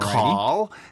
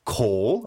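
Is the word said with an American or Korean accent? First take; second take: American; Korean. First: It is said with an American accent. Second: It is said with a Korean accent.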